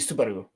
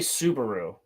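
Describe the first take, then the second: First: It is said Japanese-style, with a slightly rolled R. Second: It is said with an American accent, plain R. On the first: The speaker calls it right. "it should be Subaru. You slightly roll the R" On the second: The speaker calls it wrong. "when I say a Japanese word in in an American accent, it sounds weird to me"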